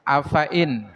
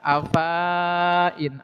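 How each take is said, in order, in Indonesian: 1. Vokal setelah f itu pendek. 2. Vokal setelah f itu panjang. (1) "hati-hati fa-nya dibaca pendek" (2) "seperti dibaca panjang"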